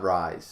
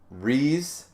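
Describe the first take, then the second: First: The vowel sounds like the word 'rise'. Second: The vowel sounds like the word 'reese'. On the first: The speaker calls it wrong. "not Rise" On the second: The speaker calls it right. "I mean, Reese"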